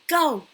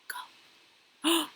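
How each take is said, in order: First: It is said at medium volume. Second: It is said quietly.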